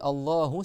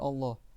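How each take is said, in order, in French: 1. Le mot se termine par une voyelle u brève. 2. Le mot se termine par une voyelle a brève. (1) "si tu dis Allahu ça veut dire c'est Dieu qui a la crainte des savants" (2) "Si tu dis Allah ça veut dire ils ont la crainte de Allah"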